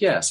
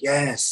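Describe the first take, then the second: First: The voice is placed higher and sounds nasal. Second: The voice comes from the back of the throat. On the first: "gets a little up here ... a little more nasally" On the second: "speaks like from the back of the throat"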